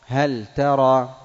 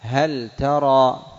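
First: هل ترى said slowly and louder, the lam of هل sounded distinctly; emphasised clear lam. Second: هل ترى said slowly with the lam of هل kept distinct; slow clear lam. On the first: Teacher repeating the example louder for emphasis. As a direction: press on the lam of هل, then ترى. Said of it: "لا بد من بيان اللام". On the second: Teacher showing the clear lam of هل before ta, slow. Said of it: "نحو". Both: Shown as a demonstration.

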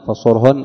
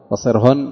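First: فصرهن said "fa-sur-hunna"; damma on the sad. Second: فصرهن said "fa-sir-hunna"; kasra on the sad. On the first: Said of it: "أن بالضم". (فصرهن بضم الصاد) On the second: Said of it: "وبالكسر". (فصرهن بكسر الصاد) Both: Shown as a demonstration.

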